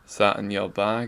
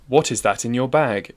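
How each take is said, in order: First: It is said in a Glasgow accent, consonants dropped. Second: It is said in a standard English accent. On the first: "we get" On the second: "instead of"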